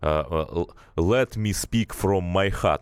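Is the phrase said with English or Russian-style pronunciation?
Russian-style. It is read letter by letter with Russian-style sounds. The speaker calls it wrong. "он говорил это так, как это читается"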